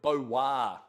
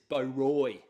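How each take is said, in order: First: The name is said with a French pronunciation. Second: The name is said as English spelling suggests.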